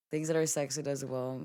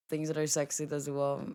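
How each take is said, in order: Both takes have the same delivery.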